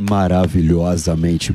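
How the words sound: It is said in a put-on deep voice.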